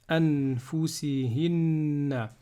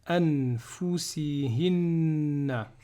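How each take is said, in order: Both takes have the same delivery.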